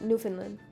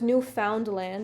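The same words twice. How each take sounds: First: The word is run together as one unit. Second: The word is split into three separate parts. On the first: "But we all say Newfoundland" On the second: "if you space it up"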